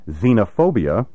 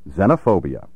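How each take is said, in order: First: The first vowel is a long E. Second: The first vowel is a short E. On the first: The speaker calls it wrong. "with a long E" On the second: The speaker calls it right. "Pronounce these words with a short E"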